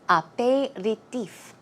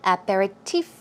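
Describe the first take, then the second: First: It is said with a French pronunciation. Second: It is said with an English pronunciation. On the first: "a French way of saying it" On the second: "The stress goes right there on the last syllable"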